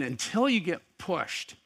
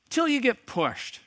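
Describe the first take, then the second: First: Said in the usual way. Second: Till pitched far higher and pushed hard; emphatic repeat. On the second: Acted. Pastor driving the point home, stress on Till. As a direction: hammer Till, much higher than before.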